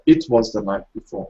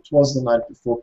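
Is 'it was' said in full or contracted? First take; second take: full; contracted. First: It was is said as two full words. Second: It was is shortened to one syllable, twas. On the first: "instead of" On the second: "native English speakers just say"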